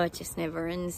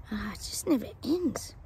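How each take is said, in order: First: Said in the usual way. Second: Breathy whispered aside. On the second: Real, not acted. Psychic sighing to viewers about the royals, whispered. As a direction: whisper it to yourself, weary.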